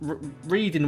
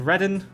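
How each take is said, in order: First: The first syllable sounds like 'reed'. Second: The first syllable sounds like 'red'. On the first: The speaker calls it wrong. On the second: The speaker calls it right.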